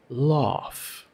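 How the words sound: The vowel is an open 'father' sound. "it's more like laugh or pass, the ah sound"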